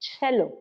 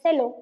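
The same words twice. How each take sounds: First: The word begins with a 'ch' sound. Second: The word does not begin with a 'ch' sound. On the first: The speaker calls it right. "cha sound" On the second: The speaker calls it wrong. "I did it as cello because I don't know"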